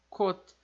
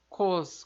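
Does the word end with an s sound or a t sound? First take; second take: t sound; s sound. First: The word ends in a short, clipped t sound. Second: The word ends in a hissing s sound. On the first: The speaker calls it right. "E esse som de T seco" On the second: The speaker calls it wrong. "Não é cos. Como a gente leria em português"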